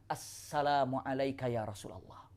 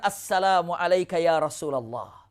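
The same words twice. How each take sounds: First: "Assalamu alayka ya Rasulullah" said much softer, gently, with a falling end; a hushed, respectful greeting to the Prophet. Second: Said in the usual way. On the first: Acted. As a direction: greet him quietly and humbly. Sofia greeting the Prophet softly.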